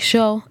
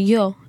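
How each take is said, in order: First: It is said with an Argentine accent. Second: It is said with a standard Latin American accent.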